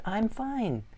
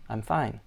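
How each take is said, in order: First: "I'm fine" pitched up with feeling; emotional I'm fine. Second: Said in the usual way. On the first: Shown as a demonstration. Teacher showing student an emotional repeat, pitched up. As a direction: say "I'm fine" like it suddenly matters. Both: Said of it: "you got emotional about it".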